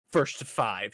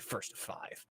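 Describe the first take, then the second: First: Said in the usual way. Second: Breathy whispered "First to five.". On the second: Retold or imitated. Same challenge repeated, whispered.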